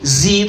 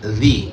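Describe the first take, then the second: First: It begins with a buzzing z sound. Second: It begins with a soft dh sound. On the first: The speaker calls it wrong. "Ghairi zi itu salah" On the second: The speaker calls it right. "Ghairi dzi pakai dzal, bukan zai"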